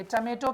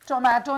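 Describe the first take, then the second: First: टमेटो with a reduced first vowel; टमेटो read with a weak first syllable; correct pronunciation. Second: टोमेटो with a full o in the first syllable; टोमेटो read with a clear first o; wrong pronunciation. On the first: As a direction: say टमेटो with a short schwa first. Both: Shown as a demonstration. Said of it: "टोमेटो नहीं पढ़ेंगे".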